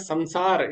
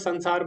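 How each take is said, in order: First: The first syllable ends with an m sound. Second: The first syllable ends with an n sound. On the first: The speaker calls it right. "वास्तव में संसार इसका सही उच्चारण है" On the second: The speaker calls it wrong. "हम इसको संसार बोलते हैं"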